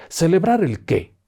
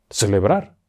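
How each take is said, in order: First: High and slow, in disbelief; incredulous question. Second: Said in the usual way. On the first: Acted. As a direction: stretch it out as if the idea is absurd. Driver repeats, incredulous. (incrédulo, agudo y lento)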